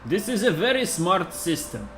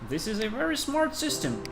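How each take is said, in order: First: It is said in a heavy Russian accent. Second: It is said in the speaker's ordinary accent.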